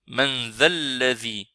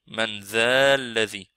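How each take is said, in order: The two takes are said the same way.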